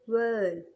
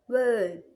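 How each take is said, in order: Both takes have the same delivery.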